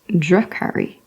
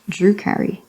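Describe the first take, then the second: First: The first vowel is the u of drum. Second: The first vowel is an oo sound. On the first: The speaker calls it right. "it's Drakari, as in drum" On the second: The speaker calls it wrong. "it's not Drukari"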